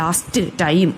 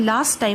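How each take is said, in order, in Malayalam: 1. "last" എന്നതിലെ അവസാനത്തെ t ഉച്ചരിക്കുന്നു. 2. "last" എന്നതിലെ അവസാനത്തെ t ഒഴിവാക്കുന്നു. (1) "ലാസ്റ്റ് ടൈം എന്ന് പറയേണ്ട കാര്യമില്ല" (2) "നമ്മൾ ലാസ്റ്റ് ടൈം എന്ന് അങ്ങ് പറഞ്ഞാൽ മതി"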